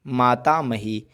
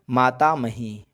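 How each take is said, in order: Both takes have the same delivery.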